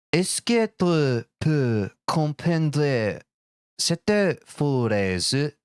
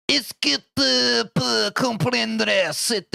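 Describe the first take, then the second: First: Put-on slow, careful French with a clumsy American accent; bad French accent. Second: Put-on much higher, very slow, overdone French accent; hammed-up French accent. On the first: Streamer reads chat's question in French, bad French accent. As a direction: sound out the French like a school student. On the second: Streamer overplays the French question, hammed-up French accent. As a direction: lean hard into a fake French voice. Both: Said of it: "I know the accent's terrible".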